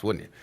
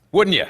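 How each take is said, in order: First: Said in the usual way. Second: Louder taunting repeat. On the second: Acted. Drunk guest presses the editor for an answer, loud taunt.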